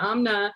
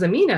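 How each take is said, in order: First: The name is said the Pakistani way. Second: The name is said the way others assume. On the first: This is how the name is said at home. "the way we pronounce it in Pakistan, we say Amna" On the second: This is how outsiders assume the name goes. "people might um, assume it was Amina"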